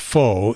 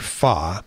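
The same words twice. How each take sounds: First: It is said like a plain English word. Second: It is said with a more Vietnamese-like sound. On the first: The speaker calls it wrong. "is not pronounced pho" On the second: The speaker calls it right. "if you pronounce it more Vietnamese like"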